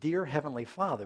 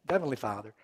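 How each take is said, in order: First: The words are spoken clearly and distinctly. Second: The words are slurred together indistinctly. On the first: The name is spoken with reverence. The speaker calls it right. "they're supposed to be saying" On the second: The name is spoken carelessly. The speaker calls it wrong. "it's almost like they slur it"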